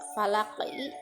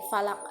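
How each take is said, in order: First: The word ends with a short i vowel. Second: The word ends on a stopped q consonant.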